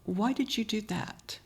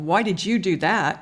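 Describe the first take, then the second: First: It is said lower, slower and gently. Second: It is said in a sharp, accusing tone. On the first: The speaker is genuinely asking the reason. The speaker calls it right. "lowering your tone, slowing your pace" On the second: The speaker is blaming the listener. The speaker calls it wrong. "Instead of"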